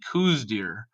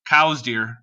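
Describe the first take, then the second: First: The name does not sound like 'cows'. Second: The name sounds like the word 'cows'. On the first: This is the name most people use. "everyone else that I meet calls them Coues deer" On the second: This is how the discoverer's family says it. "pronounced his name cows"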